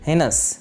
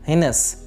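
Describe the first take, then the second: The two takes are said the same way.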